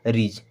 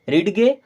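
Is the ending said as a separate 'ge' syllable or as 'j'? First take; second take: j; separate ge. First: The ending is a single soft 'j' sound. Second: The ending is a separate hard 'ge' syllable. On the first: The speaker calls it right. "ये हो जाएगा रीज" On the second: The speaker calls it wrong. "रीड गे नहीं"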